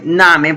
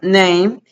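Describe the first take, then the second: First: The word is read letter by letter, two syllables. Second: The word is one syllable with an 'ay' vowel. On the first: The speaker calls it wrong. "Se escribe name, por decirlo así" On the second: The speaker calls it right. "pero pronuncio name"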